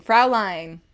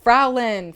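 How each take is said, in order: First: "Fraulein" as FROW-line; corrected try. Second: "Fraulein" as FROW-len; first try. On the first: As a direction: say "Fraulein" with a long "line" ending. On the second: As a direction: say "Fraulein" with a short flat second syllable. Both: Shown as a demonstration. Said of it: "Did I really not pronounce any of it right".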